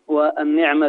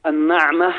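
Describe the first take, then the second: First: والنعمة with an "i" after the nun, "wan-ni'ma"; kasra on the nun. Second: النعمة with an "a" after the nun, "an-na'ma"; fatha on the nun. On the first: Guest contrasts two Arabic words for the host, saying والنعمة as "wan-ni'ma". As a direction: say والنعمة with a short "ni". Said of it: "بكسرها". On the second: Guest contrasts two Arabic words for the host, saying النعمة as "an-na'ma". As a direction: say النعمة with an open "na". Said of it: "بفتح النون". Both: Shown as a demonstration.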